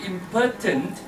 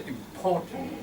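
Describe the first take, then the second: First: "Important" turned into impotent, middle shrunk to puh; mispronounced "important". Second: "Important" with a full POR in the middle, softly; corrected "important". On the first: Teacher shows the embarrassing slip, "Important" sounding like impotent. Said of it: "If we say". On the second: Teacher corrects the class, "Important" with a clear POR. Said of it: "we just correct a little bit". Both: Shown as a demonstration.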